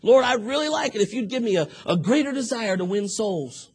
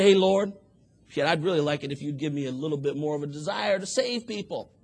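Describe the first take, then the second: First: Higher, louder earnest plea; mean every word; sincere prayer. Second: Casual lazy prayer. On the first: Man praying in earnest to the Lord, sincere and pleading. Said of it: "sound like you meant that". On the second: Man praying half-heartedly to the Lord, careless and offhand. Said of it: "It's not enough to just get down". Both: Retold or imitated.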